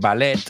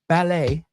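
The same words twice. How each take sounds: First: The word ends with a pronounced t sound. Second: The word ends with an 'ay' sound. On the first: "I know in Spanish you say" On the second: "in English, when we pronounce the E T... we say it like A"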